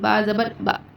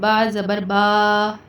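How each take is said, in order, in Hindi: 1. आख़िरी स्वर को झटके से काटा जाता है। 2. आख़िरी स्वर को लंबा खींचा जाता है। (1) "झटका देकर नहीं पढ़ना" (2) "खींच कर नहीं पढ़ना"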